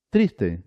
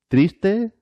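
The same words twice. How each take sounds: First: Triste with a falling tune; feminine form. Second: Triste with a high rising tune; masculine form. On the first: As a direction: let triste drop, closing the pair. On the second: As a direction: say Triste rising sharply, like the first item of a list. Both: Shown as a demonstration.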